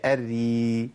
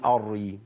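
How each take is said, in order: First: "الري" very slow, thin held ra, like "erri"; correct light ra. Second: "الري" with a thick first ra, like "arri"; wrong heavy ra. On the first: Teacher corrects the syllable, long thin ra. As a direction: hold the doubled ra of "الري" light. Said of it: "هي". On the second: Teacher rejects this reading, heavy first ra. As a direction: darken the opening of "الري". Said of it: "ما ينفعش أقول". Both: Shown as a demonstration.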